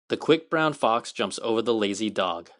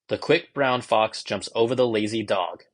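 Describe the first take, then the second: First: The voice sounds the fullest and cleanest of all. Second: The voice sounds natural and fairly clean. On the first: "nothing compares to actually speaking to an iPhone fourteen directly" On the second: "more natural. There's a little more beat to the sound and just a lot cleaner"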